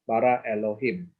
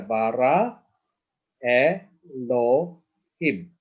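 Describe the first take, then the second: First: Said in the usual way. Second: BARA ELOHIM slowly, E ... LO ... HIM separated; syllable by syllable. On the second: Shown as a demonstration. Teacher pointing through the word, syllable by syllable. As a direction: stretch "Elohim" into three spaced syllables. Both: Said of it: "let's look at here".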